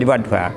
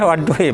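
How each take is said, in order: First: The word ends with an 'a' vowel. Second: The word ends with an 'i' vowel. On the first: "tapi ini fathah" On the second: "ada yang baca memang wadduhi"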